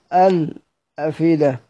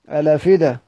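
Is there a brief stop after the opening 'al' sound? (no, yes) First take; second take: yes; no. First: A brief stop comes after the opening 'al'. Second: The word flows on with no break. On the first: "بالسكت" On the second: "نقراها بالنقل"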